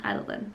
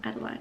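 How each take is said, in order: First: "Adeline" ending in an unstressed -lin; short last syllable. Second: "Adeline" ending like the word line; long-i ending. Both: Shown as a demonstration. Trying out two pronunciations of a name.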